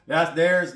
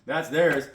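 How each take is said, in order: First: "theirs" said louder and firmer the second time; firm repeat. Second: Said in the usual way. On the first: Shown as a demonstration. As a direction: land hard on "theirs" to drive it home.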